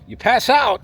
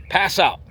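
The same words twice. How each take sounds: First: "pass out" said high and louder, with the weight on "out"; "You pass out" with a high, loud hit on "out"; punchy stress. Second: Said in the usual way. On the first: Shown as a demonstration. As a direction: hammer home "out" as the punchline.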